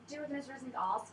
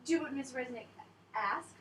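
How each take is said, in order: First: It is said in a British accent. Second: It is said in an American accent. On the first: The actor slipped out of character. The speaker calls it wrong. "I kept just going" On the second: This is the intended line. The speaker calls it right. "I was supposed to say"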